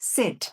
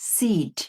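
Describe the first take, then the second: First: The vowel is a short, lax, e-like sound. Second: The vowel is a long, tense ee sound. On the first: The speaker calls it right. "এটা হচ্ছে এ, এ" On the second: The speaker calls it wrong. "Not সিট"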